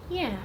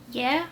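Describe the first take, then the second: First: Short, falling "Yeah"; said simply. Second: High, rising, unsure "Yeah?"; "Yeah?" lifting into a doubtful question; uncertain. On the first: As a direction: answer "Yeah" simply, settling it. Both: A narrator's reading.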